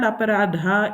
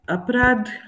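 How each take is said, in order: First: The word ends with a full final a vowel. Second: The word ends on a consonant, vowel cut short. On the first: This is the Kannada form. "it's called Aparadha in Kannada" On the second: This is the Hindi form. "Hindi means crime"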